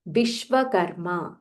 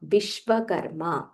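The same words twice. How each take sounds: No difference in how they are said.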